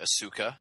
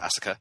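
First: The name is said slowly with an American accent. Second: The name is said quickly with a Japanese pronunciation. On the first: "the Americanization of it would probably be Asuka" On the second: "the Japanese pronunciation, which is basically saying that very fast"

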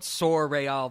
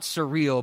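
First: It is said with a French pronunciation. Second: It is said with an English pronunciation. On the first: The speaker calls it right. "but surreal, the French" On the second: The speaker calls it wrong. "not surreal"

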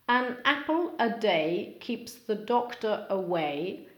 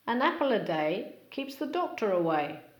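First: Each word is said separately and clearly. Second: The words run smoothly together without breaks.

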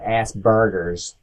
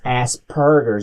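First: The consonant after the s is a b. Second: The consonant after the s is a p. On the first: The speaker calls it wrong. "not a B" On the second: The speaker calls it right. "It's with a P"

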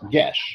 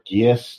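First: The word is said as one syllable, gesh. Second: The word is said as two syllables, gee-us. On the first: The speaker calls it right. "and it's Gesh" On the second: The speaker calls it wrong. "Or Gius, depending"

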